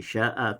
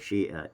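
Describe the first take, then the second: First: The final vowel is an open a. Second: The vowels are tilted toward i. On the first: "Dari sya'a" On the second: "dibaca juga dengan imalah"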